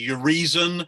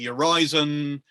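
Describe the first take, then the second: First: The name is said to sound like reason. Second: The name is said to rhyme with horizon. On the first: The name echoes the word reason. "because of reason" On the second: The name echoes the word horizon. "by analogy with horizon"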